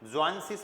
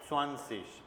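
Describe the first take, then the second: First: The word begins with a z sound. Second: The word begins with an s sound. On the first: The speaker calls it wrong. "ज्वांसिश मत बोलो" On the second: The speaker calls it right.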